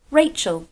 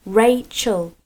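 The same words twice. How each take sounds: First: Said in the usual way. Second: Rachel in two separated beats, Ra-chel; split into syllables. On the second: Shown as a demonstration. Teacher letting children hear two syllables in Rachel, pulled apart. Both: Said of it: "has two syllables. Can you hear them?".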